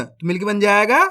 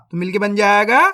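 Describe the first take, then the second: No difference in how they are said.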